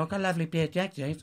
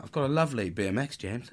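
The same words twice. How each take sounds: First: Put-on higher, quick posh little boy; mock posh English, pitched up. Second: Said in the usual way. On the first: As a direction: put on a hurried posh accent. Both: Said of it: "In a posh voice".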